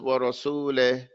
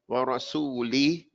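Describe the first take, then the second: First: The final kasra vowel is sounded incomplete. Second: The final kasra vowel is sounded full. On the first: The speaker calls it wrong. "then the Kesra is incomplete" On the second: The speaker calls it right. "instead of saying"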